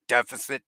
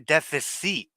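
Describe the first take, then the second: First: The word is said with an English accent. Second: The word is said with a French accent.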